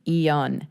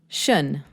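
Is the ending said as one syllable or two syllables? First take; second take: two; one. First: The ending is said as two syllables. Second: The ending is said as one syllable. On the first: "the I O N is actually pronounced, making it a two syllable" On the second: "you're going to make it one short, simple sound"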